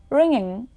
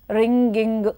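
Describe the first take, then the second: First: The ng sound has no hard g after it. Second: A hard g is added after the ng sound.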